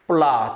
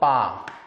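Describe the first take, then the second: First: The word is said with an L after P. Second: The word is said with no L sound. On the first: "영어의 L 소리가 나는 이 소리" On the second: "플라 대신에 빠라는 소리로 많이 들립니다"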